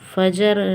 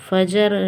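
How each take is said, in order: First: A short vowel is inserted between j and r. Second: A short vowel is inserted between j and r.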